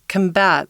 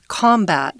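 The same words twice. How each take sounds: First: The stress is on the second syllable. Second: The stress is on the first syllable. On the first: It is used as a verb meaning to fight something. "The accent goes on the on the second syllable" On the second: It is used as a noun. "if you say it as a noun"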